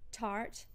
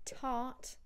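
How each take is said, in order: First: The R before the consonant is pronounced. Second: The R before the consonant is silent. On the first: "the R before consonants would be" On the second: "we don't pronounce the R if it's followed by a consonant"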